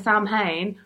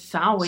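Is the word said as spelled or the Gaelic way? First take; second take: as spelled; Gaelic way. First: It is pronounced the way the spelling looks. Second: It is pronounced the Gaelic way, unlike spelling. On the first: The speaker calls it wrong. "So it looks like a" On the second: The speaker calls it right. "But it's"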